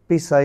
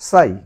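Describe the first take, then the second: First: The syllable begins with a sounded p. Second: The syllable begins with an s sound. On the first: The speaker calls it wrong. "পিসাই না বলে সাই" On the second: The speaker calls it right. "পিসাই না বলে সাই"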